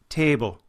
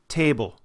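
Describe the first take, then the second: First: It is said in an Irish accent. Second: The same.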